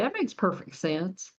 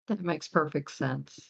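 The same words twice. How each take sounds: First: It is said in a Southern American accent. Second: It is said in a neutral accent.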